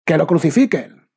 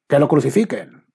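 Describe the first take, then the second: First: Even louder and higher mob yell; louder shout. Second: Loud, high call of the crowd; crowd shout. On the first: The crowd drowning out Pilate's plea, full shout. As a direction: outshout the first cry. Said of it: "gritaban más fuerte". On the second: The crowd to Pilate, demanding his death, shouting. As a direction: shout it as an angry mob. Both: A narrator's reading.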